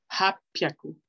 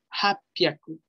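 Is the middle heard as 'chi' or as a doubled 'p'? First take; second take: double p; double p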